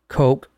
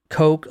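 First: The name is said to rhyme with cock. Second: The name is said to rhyme with coke. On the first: "I've also heard it pronounced like cock" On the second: "like the Coke you drink"

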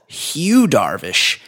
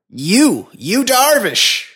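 First: The H at the start is clearly pronounced. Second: The H at the start is swallowed.

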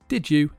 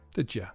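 First: The word 'you' is said in full. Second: The word 'you' is reduced to 'ya'. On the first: "Did you is pronounced" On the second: "weak forms"

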